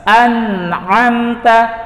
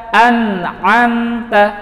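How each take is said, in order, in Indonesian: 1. Bunyi n diucapkan dengan jelas. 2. Bunyi n diucapkan dengan jelas.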